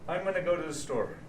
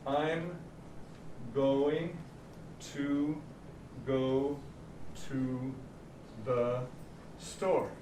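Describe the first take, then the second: First: The words run together with reduced vowels. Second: Each word is said slowly and fully. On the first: The speaker calls it right. "How we really say it is in chunks" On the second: The speaker calls it wrong. "the way it's written in the book ... word for word"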